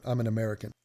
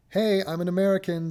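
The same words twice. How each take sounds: First: Lower-pitched, throwaway aside; offhand side note. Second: Higher-pitched mock self-introduction; mock announcing. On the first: Acted. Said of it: "It's like a side note". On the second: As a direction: announce it like your whole identity, mockingly. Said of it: "I'm not sitting there going".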